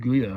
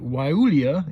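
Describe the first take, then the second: First: The word begins with a hard G sound. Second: The word begins with a W sound. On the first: The speaker calls it wrong. "want to say like Glia or something like that, but that's not how you pronounce it" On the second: The speaker calls it right. "I'm perhaps trying to pronounce it the right way"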